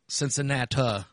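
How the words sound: The city name is said the Southern country way.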